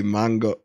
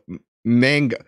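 First: "mango" with an open "ah"; "mango" with a Spanish first vowel; Spanish pronunciation. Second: "mango" with a flat a as in "man"; American pronunciation. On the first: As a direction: say "mango" as "MAHN-go". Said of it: "Why do I say mango?". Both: Shown as a demonstration.

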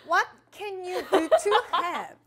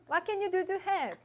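First: Laughing English read. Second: Said in the usual way. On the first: Shown as a demonstration. Reading English card, laughing.

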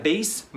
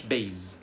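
First: Base ending in hissed s, "bayss"; correct s sound. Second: Base said "bayz"; mistaken z sound. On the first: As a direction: end "base" on a voiceless s. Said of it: "هنا هنقولها base مش base". (base بسين في الآخر) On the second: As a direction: buzz the end of "base" as z. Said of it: "مش base". (base غلط بزين في الآخر) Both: Shown as a demonstration.

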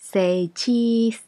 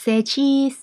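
First: Said in the usual way. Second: High, loud, cheery "Say cheese"; photographer's cheery call. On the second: Shown as a demonstration. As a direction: coax a smile for the camera.

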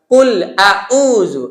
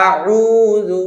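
First: কুল আউযু slow, both vowels sharp hamza; wrong all-hamza reading. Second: আউযু with both vowels alike; wrong same-sound আউযু. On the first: Teacher demos the all-hamza error, slow and drawn out. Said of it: "দুটোই হামজা বা আলিফ করা যাবে না". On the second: Teacher warns students against the same sound, said wrong. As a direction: flatten আউযু into one sound. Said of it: "একইভাবে বলা যাবে না". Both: Shown as a demonstration.

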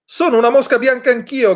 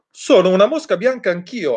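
First: Much higher, croaked crow voice; cawing crow. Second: Barking dog. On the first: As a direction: caw it out like a crow. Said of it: "gracchiò una cornacchia". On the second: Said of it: "abbaiò ad un tratto un cane verde". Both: A narrator's reading.

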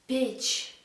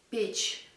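First: Said in the usual way. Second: Печь echoed almost voiceless; breathy whispered repeat. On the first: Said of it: "teacher models the verb". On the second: Shown as a demonstration. Teacher echoes Печь for students, nearly whispered. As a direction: whisper Печь back as an echo. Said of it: "teacher repeats the model word".

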